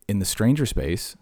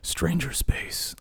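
First: Said in the usual way. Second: Slow, high, drawn-out show title; title announcement. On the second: Shown as a demonstration. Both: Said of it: "That's gonna be the name".

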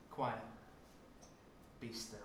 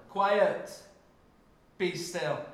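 First: Low, soft hush to the storm; calm it down gently, barely voiced; soft command. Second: Loud, high rebuke to the storm; louder command. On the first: Preacher's first try at Jesus's words, soft and low. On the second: Preacher tries Jesus's words again, loud and high. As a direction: bark it at the waves. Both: Shown as a demonstration. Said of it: "Maybe a bit louder".

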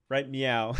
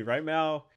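First: "meow" slipped in as a cat's mew; playful little "meow" on the last word; cat-pun pronunciation. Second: Said in the usual way. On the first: Pretend. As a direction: say "meow" where "now" belongs. Jokey cat pun on "now.

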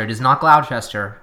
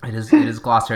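First: "Gloucester" as GLOW-chester, as spelt; mock spelling pronunciation. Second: "Gloucester" as GLOSS-ter, final R sounded; R pronounced. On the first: Rejecting the spelled-out way to co-host, "GLOW-chester". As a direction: say "Gloucester" wrongly in three syllables, "GLOW-chess-ter". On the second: Defending own accent to co-host, R-ful "Gloucester". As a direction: say "Gloucester" in two syllables with a clear R. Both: Shown as a demonstration. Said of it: "my R's are present and accounted for".

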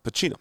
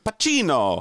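First: Said in the usual way. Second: Italian accent, higher and drawn out on Pacino; hammed-up Italian pronunciation of the name; mock Italian flourish. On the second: Shown as a demonstration. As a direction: exclaim it like a proud mock Italian.

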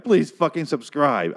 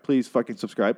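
First: Please fucking subscribe, slow, please stretched; pleading emphasis on please. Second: Said in the usual way. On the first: Shown as a demonstration. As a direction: beg slowly, leaning on Please.

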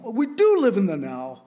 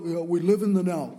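First: "do" hit louder in "We do live in the now"; stress on do. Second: Said in the usual way. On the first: Shown as a demonstration. Pastor conceding the point to the congregation, with stress on "do". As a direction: lean hard on "do" to insist.

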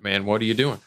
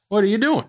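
First: Said in the usual way. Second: High, loud disbelieving squeal; mock outrage. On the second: Shown as a demonstration.

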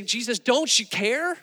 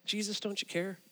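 First: Higher pleading cry, retold; mock alarm, rising into an urgent question; panicked disciples. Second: Softly voiced, searching question; hushed and personal, as if praying; quiet plea. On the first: Freaking-out disciples waking Jesus, panicked. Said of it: "they're freaking out". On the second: Believer in a trial asking Jesus, quiet plea.

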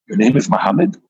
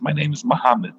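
First: Lifting "Muhammad" into a question; questioning echo. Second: Said in the usual way. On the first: Acted. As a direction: repeat the name, rising on "Muhammad". Host echoes the name as question.

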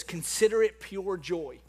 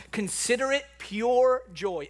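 First: Said in the usual way. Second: "pure joy" drawn out slowly; "Consider it pure joy" slow and weighty; emphatic slow repeat. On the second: Shown as a demonstration.

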